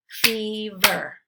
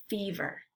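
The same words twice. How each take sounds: First: "Fever" as two separate beats, Fe – ver; syllables split apart. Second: Said in the usual way. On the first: Shown as a demonstration. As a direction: say "Fever" syllable by syllable, pausing between. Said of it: "give you the parts of the syllable". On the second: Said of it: "blend it together".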